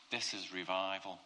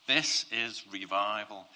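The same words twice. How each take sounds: First: Said in the usual way. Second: "This is revival" slow, each word weighted; emphatic proclamation. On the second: Acted. Preacher proclaiming what Elijah felt, "This is revival" slow and emphatic. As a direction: drag out and punch "This is revival".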